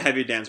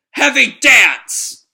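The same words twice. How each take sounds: First: Said in the usual way. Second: Slow, high, very loud battle cry; attack shout. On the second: Acted. Shiki slamming every enemy, shouted attack name. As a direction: bellow the move name, stretched out.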